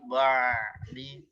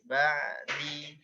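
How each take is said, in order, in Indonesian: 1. Bunyi ain itu berat dan tebal. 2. Bunyi ain itu ringan dan tipis. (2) "ainnya tipis"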